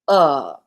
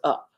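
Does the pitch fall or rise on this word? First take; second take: fall; rise. First: The pitch falls on the word. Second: The pitch rises on the word. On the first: The tone contradicts the meaning and confuses the listener. "I drop my tone and my my voice as I'm saying up" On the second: The tone matches the meaning of the word. "the spoken tone in the up, up goes up"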